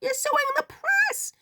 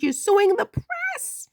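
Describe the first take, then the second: First: Shrill disbelief. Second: "suing" stretched slow and high; emphatic disbelief. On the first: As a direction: squeak "press" in stunned disbelief. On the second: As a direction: lean on "suing" in slow amazement. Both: Real, not acted.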